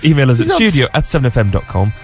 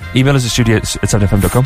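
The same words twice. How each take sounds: First: The address is said at a slower pace. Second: The address is said at a quicker pace.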